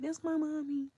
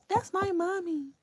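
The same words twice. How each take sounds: First: Put-on high little-kid voice; a toddler proudly naming his mother; imitating a little boy. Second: Put-on high, slow little-kid voice; a toddler proudly naming his mother; imitating a little boy. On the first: Mother quoting her son again, high-pitched. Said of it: "So to hear him be like". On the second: Mother voicing her young son at the door, high and slow. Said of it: "Samir said".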